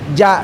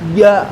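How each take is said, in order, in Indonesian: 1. Bunyi j lembut, lidah tidak terangkat. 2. Bunyi j keras, lidah terangkat. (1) "bukan ja" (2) "berusaha diangkat"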